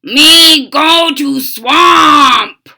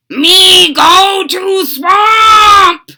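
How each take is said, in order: First: Loud, high, slow bellow; booming slow frog monster. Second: Loud, high, slow croak; booming slow frog monster. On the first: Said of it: "bellowed Frankenfrog". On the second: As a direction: croak it stubbornly. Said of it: "he croaked". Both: Acted.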